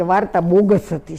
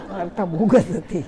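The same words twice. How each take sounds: First: Said in the usual way. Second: Said through a real laugh. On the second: Real, not acted. Repeating the nephew's verdict to the audience, laughing. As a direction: chuckle the words out, amused.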